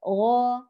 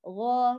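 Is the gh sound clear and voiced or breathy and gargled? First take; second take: clear; clear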